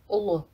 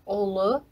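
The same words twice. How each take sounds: First: It is pronounced differently from its spelling. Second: It is pronounced exactly as it is spelled. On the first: "Произносить лучше" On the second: "Пишется"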